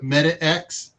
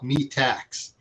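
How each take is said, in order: First: It is split as 'meta' plus 'x'. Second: It is split as 'me' plus 'tax'. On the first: "He put Meta X" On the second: "pronounce it a little bit differently"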